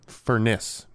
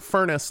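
First: The stress is on the second syllable. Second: The stress is on the first syllable. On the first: The speaker calls it right. "I think it was just putting the emphasis on the second syllable" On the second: The speaker calls it wrong. "It's not Furniss, like, because that's a different word"

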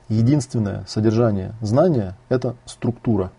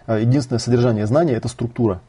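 First: The sentence is spoken slowly and deliberately. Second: The sentence is spoken at a normal pace.

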